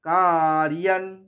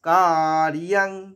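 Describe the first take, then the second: No difference in how they are said.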